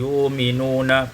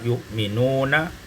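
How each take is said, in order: First: A long u vowel replaces the glottal stop. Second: A glottal stop is heard before the m.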